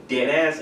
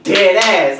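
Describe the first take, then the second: First: Said in the usual way. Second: Loud, high New York drawl on "Dead ass."; "Dead ass." belted in a thick Bronx accent. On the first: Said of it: "And I say". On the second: Retold or imitated. Imitating the Bronx manager for his coworkers, loud and high. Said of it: "he's like".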